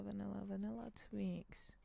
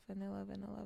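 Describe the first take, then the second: First: Whispering. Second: Said in the usual way. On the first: Shown as a demonstration. Repeating a pack name to himself.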